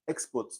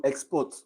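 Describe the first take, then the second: First: "export" as a noun, stress on EX. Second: "export" as a verb, stress on PORT. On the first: Teacher contrasting the noun with the verb, export stressed on EX. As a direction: lean on the first syllable of "export". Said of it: "The syllable is on the X". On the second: Teacher demonstrating the verb, export stressed on PORT. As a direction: lean on the second syllable of "export". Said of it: "stress is on the port". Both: Shown as a demonstration.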